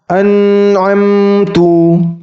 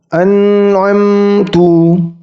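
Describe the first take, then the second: The two takes are said the same way.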